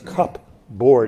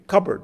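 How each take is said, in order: First: Both parts are said separately, p sound included. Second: The parts merge and the p sound disappears. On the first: The speaker calls it wrong. "Nobody says cup board, even though that's the way it's spelled" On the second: The speaker calls it right. "That's language assimilation"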